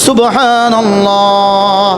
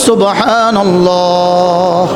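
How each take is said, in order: Both takes have the same delivery.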